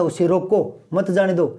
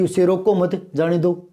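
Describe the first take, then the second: First: "उसे रोको", pause, "मत जाने दो"; pause after रोको. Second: "उसे रोको मत", pause, "जाने दो"; pause after मत. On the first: Teacher contrasting intended meaning with the opposite, pause after रोको. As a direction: break between "रोको" and "मत". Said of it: "कहाँ तो वो ये कहने वाला था". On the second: Teacher showing the completely opposite meaning, pause after मत. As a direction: run "रोको मत" together before the break. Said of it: "बिल्कुल विपरीत हो गया". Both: Shown as a demonstration.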